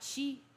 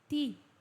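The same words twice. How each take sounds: First: The T is said like 'chee'. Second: The T is said like 'tee'. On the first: The speaker calls it wrong. "Atenção com o T, cariocas, para não falar ti" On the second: The speaker calls it right. "é ti ... A língua vai no dente"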